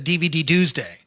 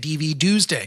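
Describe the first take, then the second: First: The final D is said as its own letter. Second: The final D blends into Tuesday. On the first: The speaker calls it wrong. "their brain says D V D Tuesday" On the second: The speaker calls it right. "the correct pronunciation of- is always has always been D V Tuesday"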